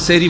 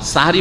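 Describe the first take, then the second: First: The first syllable has an 'e' vowel. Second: The first syllable has an open 'a' vowel. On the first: The word comes from the Arabic for magic. The speaker calls it wrong. "সেহরি বলবেন না।" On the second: The word comes from the Arabic for the time before dawn. The speaker calls it right. "সাহরি বলবেন"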